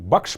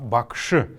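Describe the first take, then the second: First: The word ends on the sh consonant. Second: The word ends with a faint vowel. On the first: The speaker calls it wrong. "Мы не мы бакш произносим" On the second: The speaker calls it right. "после буквы Ш есть неясный гласный"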